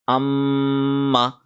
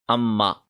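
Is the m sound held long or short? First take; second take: long; short. First: The m sound is held for about a second. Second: The m sound is short and quickly released. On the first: The speaker calls it right. "We have to stay on it for one second" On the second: The speaker calls it wrong. "So many people make this mistake. They read it like this"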